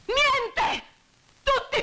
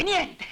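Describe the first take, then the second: First: Niente! screamed much higher and louder; furious shout. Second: Niente! flung out in anger, a little raised; a sharp angry outburst on Niente!; angry cry. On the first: Widow screaming at the men who did nothing, furious. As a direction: hurl Niente! at the top of her voice. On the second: Widow scolding the idle onlookers, angry. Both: Acted.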